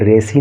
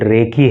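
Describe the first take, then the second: First: The middle consonant is an S sound. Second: The middle consonant is a K sound. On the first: The speaker calls it wrong. "ये रेसी नहीं है" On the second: The speaker calls it right. "ये रेकी है"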